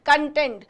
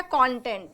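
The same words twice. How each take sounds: First: कंटेंट as con-TENT, stress on the second syllable; कंटेंट with the weight on TENT; adjective content. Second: कंटेंट as CON-tent, stress on the first syllable; कंटेंट with the weight on CON; noun content. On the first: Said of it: "जब हम इसको कंटेंट pronounce करेंगे". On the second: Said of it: "ये pronunciation है कंटेंट". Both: Shown as a demonstration.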